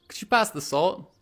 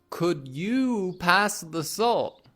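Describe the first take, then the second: First: Could you is blended into could ya. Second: Could you is said fully, both words clear. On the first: "We'll say, / could you becomes could you or could ya?" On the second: "Instead of saying"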